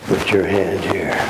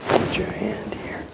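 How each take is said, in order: First: Said in the usual way. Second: Whispered "Put your hand here." barely audible. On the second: Shown as a demonstration.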